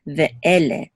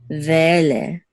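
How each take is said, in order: First: Ve'ele parted as "Ve" and "ele"; distinct syllables. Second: Ve'ele merged into "vele", no break; slurred together. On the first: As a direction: restart the vowel after Ve in Ve'ele. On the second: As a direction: run Ve straight into ele in Ve'ele. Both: Shown as a demonstration. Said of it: "We don't slur it together".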